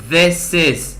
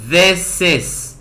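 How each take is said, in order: Both takes have the same delivery.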